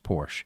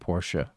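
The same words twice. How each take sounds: First: It ends without any extra vowel sound. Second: It ends with an extra vowel sound. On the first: "rather than just" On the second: "put that e at the end"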